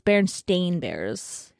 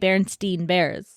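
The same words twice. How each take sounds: First: The last syllable of the name sounds like 'stain'. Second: The last syllable of the name sounds like 'stine'. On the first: This matches how the name is actually spelled. "it's spelled with an A and not an E, so it's Berenstain Bears" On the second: This is how the name was remembered from childhood. "I even say Berenstain Bears"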